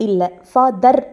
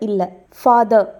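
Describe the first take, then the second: Both takes have the same delivery.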